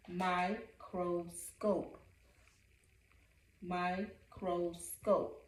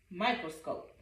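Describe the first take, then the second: First: Slow syllable-timed. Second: Said in the usual way. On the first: Shown as a demonstration.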